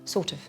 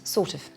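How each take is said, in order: The two takes are said the same way.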